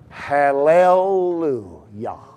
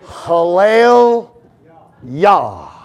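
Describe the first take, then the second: First: The two parts are joined by a 'u' vowel. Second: The two parts are said without a joining vowel.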